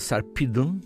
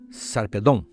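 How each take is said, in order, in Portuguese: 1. O nome é dito com pronúncia inglesa. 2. O nome é dito com pronúncia grega. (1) "em inglês" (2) "como os gregos, como os espanhóis"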